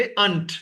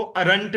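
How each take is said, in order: First: "अंट" as one syllable, no r; native pronunciation. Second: "अरंट" in two syllables with the r; Pakistani pronunciation. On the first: Teacher corrects pupils to the r-less "अंट". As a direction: drop the r entirely in "अंट". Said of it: "अरंट भी pronounce नहीं करोगे". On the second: Teacher cites common Pakistani aren't, "अरंट" with r. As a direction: sound the r in the middle of "अरंट". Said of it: "अरंट भी pronounce करते हैं". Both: Shown as a demonstration.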